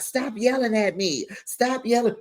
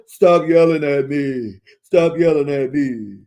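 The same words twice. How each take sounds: First: Retold yelling. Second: Loud, drawn-out mock yelling; Lisa yelling. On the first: Castmate protesting being yelled at, mimicked high yell. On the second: Arguing castmate shouting back at her accuser, mimicked yelling. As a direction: belt out each repeat, hammed-up. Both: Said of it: "you are the queen of yelling".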